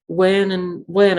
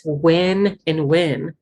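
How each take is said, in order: First: Said in the usual way. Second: Slow, careful "Win and win"; two words kept distinct. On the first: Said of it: "That is the same word". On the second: Retold or imitated. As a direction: stretch each "win" in "win and win" as a separate word. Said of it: "Those are two different words".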